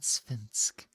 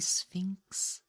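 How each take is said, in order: First: The word ends with an 'sk' sound. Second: The word ends with a 'ks' sound. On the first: The speaker calls it wrong. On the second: The speaker calls it right.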